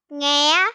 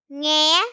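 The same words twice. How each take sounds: No difference in how they are said.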